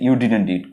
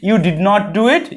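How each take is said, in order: First: Did and not merge into one short word. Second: Did and not are said as two full words.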